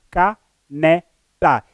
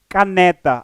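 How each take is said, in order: First: "Caneta" very slowly as ca, ne, ta; syllable by syllable. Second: Said in the usual way. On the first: Shown as a demonstration. Teacher counting out three syllables, "Caneta" broken into ca - ne - ta. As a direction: split "Caneta" into three separate beats with pauses. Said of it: "A palavra caneta traz três sílabas". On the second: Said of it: "caneta traz três sílabas".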